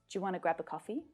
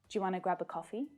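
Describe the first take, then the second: Both takes have the same delivery.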